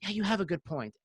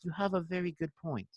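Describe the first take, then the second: First: Said in the usual way. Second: Put-on soft, measured British accent; Sammy. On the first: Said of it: "I could hear him saying". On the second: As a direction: imitate a British friend conceding gently. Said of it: "like, his British accent".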